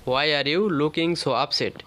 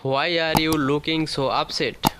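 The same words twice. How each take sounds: First: Slow, falling on "you"; slow falling model. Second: Slow, rising on "are"; slow rising model. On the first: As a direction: repeat "Why are you looking so upset?" slowly, stressing "you" and falling. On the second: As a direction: say "Why are you looking so upset?" slowly, lifting "are". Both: Shown as a demonstration. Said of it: "বলতে পারি".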